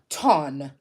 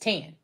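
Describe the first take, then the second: First: The vowel is like the one in 'done'. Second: The vowel is like the one in 'can'. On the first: This matches the spelling but is rarely said. "Nobody normally says" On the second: This is how the family and people around them say it. "the way that all of us pronounce it"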